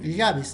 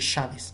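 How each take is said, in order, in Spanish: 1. La palabra empieza con sonido de y. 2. La palabra empieza con sonido de sh. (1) "Escriben llaves" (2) "en vez de llaves"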